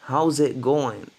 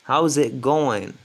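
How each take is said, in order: The two takes are said the same way.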